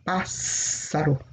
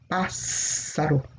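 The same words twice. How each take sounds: First: The middle consonant is a hissing S sound. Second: The same.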